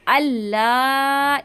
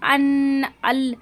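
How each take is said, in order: First: The n merges into a doubled l sound. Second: The n sound is clearly pronounced before l. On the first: The speaker calls it right. "नून को हमें नहीं पढ़ना, लाम की जो तशदीद है हमें इसको पढ़ना है" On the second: The speaker calls it wrong. "इसको ना ज्यादातर लोग गलत पढ़ते हैं"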